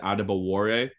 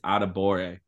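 First: A W sound is heard in the name. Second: No W sound is heard in the name. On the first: The speaker calls it wrong. "I always pronounced it Adebore" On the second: The speaker calls it right. "The W is silent in his name"

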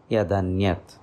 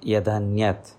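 First: The two words merge into one with a d. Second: The two words merge into one with a d.

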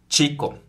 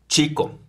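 Both takes have the same delivery.

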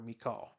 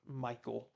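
First: The name is said unlike Michael. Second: The name is said much like Michael. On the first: The speaker calls it right. "That's how I chose to pronounce that" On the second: The speaker calls it wrong. "like a masculine name"

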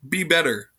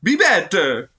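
First: It is said in a plain voice. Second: It is said in a Mario impression.

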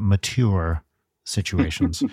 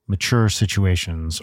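First: It is said in a put-on Canadian accent. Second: It is said in the speaker's plain accent.

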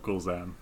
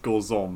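First: The last syllable sounds like 'zam'. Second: The last syllable sounds like 'zom'. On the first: The speaker calls it wrong. "not Gorzam" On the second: The speaker calls it right.

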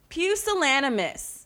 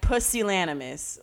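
First: The first syllable sounds like 'pew'. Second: The first syllable does not sound like 'pew'. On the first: The speaker calls it right. "the first syllable is pronounced pew" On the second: The speaker calls it wrong. "I kept pronouncing it like Pusillanimous. Like, no"

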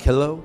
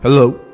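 First: It is said in a normal voice. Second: It is said in a deeper voice.

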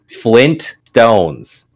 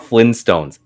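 First: The T after the N is pronounced. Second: The T after the N is dropped. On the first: The speaker calls it right. "it is Flintstones" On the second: The speaker calls it wrong. "not Flintstones"

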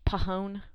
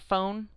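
First: It starts with a p and an extra vowel. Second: It starts with an f sound, no extra vowel. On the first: "that's how you should pronounce it if you're just reading it verbatim on how it's spelled" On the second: "like you're talking about a phone"

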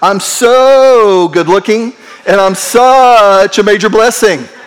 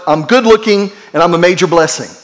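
First: It is said with showy, dramatic flair. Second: It is said plainly, without drama.

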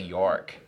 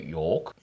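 First: York is said with an American vowel. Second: York is said with a non-American vowel. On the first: "Americans say York" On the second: "and you say York"

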